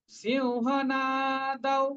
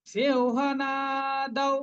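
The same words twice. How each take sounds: First: সিংহনাদৌ slow, with a nasal সিউ and a long না. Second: সিংহনাদৌ slow, with a long না. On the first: Teacher repeating সিংহনাদৌ with the long না. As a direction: hold the না in সিংহনাদৌ. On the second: Teacher modelling the long না in সিংহনাদৌ. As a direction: stretch the না in সিংহনাদৌ. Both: Shown as a demonstration. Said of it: "নাটা দীর্ঘ".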